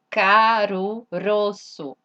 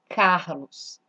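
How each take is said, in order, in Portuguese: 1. O nome é pronunciado com sons japoneses. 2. O nome é pronunciado com sons portugueses. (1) "é o nome Carlos em japonês?" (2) "Olha esse nome"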